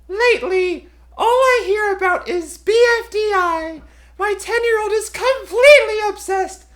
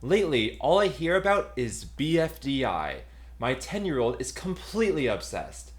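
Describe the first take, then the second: First: It is read in an imitation of X's voice. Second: It is read in the speaker's normal voice.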